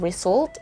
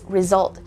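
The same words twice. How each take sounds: First: The first vowel is a full U sound. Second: The first vowel is a reduced schwa. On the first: The speaker calls it wrong. "it's not the U sound" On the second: The speaker calls it right. "it's a schwa"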